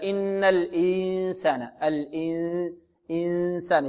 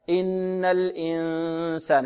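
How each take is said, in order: First: الإنسان with the sound pushed out of the mouth; mouthy nasalization. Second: الإنسان slow, the noon hidden through the nose; nasal ikhfa. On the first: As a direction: press الإنسان through the mouth wrongly. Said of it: "يجعلونه يخرج من الفم هكذا". (إخفاء خاطئ من الفم) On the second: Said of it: "نضغط على الأنف". (إخفاء من الخيشوم) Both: Shown as a demonstration.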